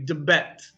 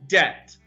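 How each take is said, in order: First: The B sound is pronounced aloud. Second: The B sound is left silent. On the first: The speaker calls it wrong. "we don't pronounce the B sound. We don't say debet" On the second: The speaker calls it right. "So the B is silent"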